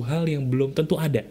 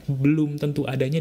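First: Said in the usual way. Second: "belum tentu adanya" set apart, rising on "belum"; underlined phrase. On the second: Shown as a demonstration. (tekankan "belum tentu adanya", naik di "belum")

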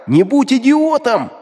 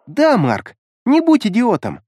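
First: Demon scolding. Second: Girl's high mocking repeat; mocking echo. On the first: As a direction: bark it slowly like a final warning. Demon yells at Mark. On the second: Creepy child mocks the demon's words back at Mark, high and smirking. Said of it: "Грозе усмехнулась". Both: A narrator's reading.

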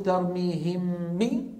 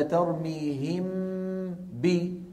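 First: ترميهم بي with the م held and doubled, nasal hum carried into بي; wrong ikhfa. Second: ترميهم بي with the nasal hum kept only on the م, then a clean بي; correct ikhfa. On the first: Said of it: "هل أقول". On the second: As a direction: keep the hum on the م of ترميهم and release بي plainly. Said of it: "ولا". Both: Shown as a demonstration.

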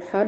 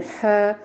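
First: حاء said heavy and thick; حاء said wrongly, too heavy; wrong haa. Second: حاء said light and thin from the mid-throat; حاء said correctly, light; correct haa. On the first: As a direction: darken the sound in حاء. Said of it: "لا نقول حاء". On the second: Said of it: "نقول حاء". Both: Shown as a demonstration.

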